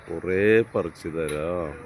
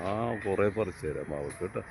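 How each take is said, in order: First: കുറേ drawn out slowly, each word stretched; slow, coaxing promise to a crying child. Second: Said in the usual way. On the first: Acted. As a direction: slowly spell out "കുറേ പറിച്ചു തരാം" to calm the little one. Brother soothing crying little one.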